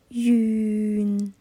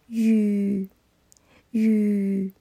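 First: The word ends with a nasal sound. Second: The word ends without a nasal sound. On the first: The speaker calls it right. "应该是云" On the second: The speaker calls it wrong. "我听到的是雨，少了一个鼻音"

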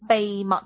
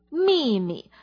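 First: The word begins with a b sound. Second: The word begins with an m sound. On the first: "我们会说B 开头的那个字，波波，就是秘密" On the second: "秘密是摸发音"

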